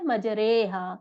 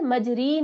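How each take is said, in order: First: The vowel after r is an ay sound. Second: The vowel after r is a long ee. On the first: The speaker calls it right. "री के बजाय रे पढ़ा जाएगा" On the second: The speaker calls it wrong. "मजरी नहीं पढ़ते"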